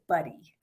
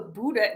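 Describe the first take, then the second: First: The surname is said with its local American pronunciation. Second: The surname is said with its German pronunciation. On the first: This is how people locally say the name. "but everybody around here says Buddy" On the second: This is how the name is said in its original language. "It's actually a German name, so Buddha would be how you say it"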